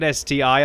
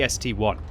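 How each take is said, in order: First: The final part is said as the letter I. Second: The final part is said as the number one. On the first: The speaker calls it wrong. "Don't pronounce it like an S T I" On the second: The speaker calls it right. "It's clearly the S T one"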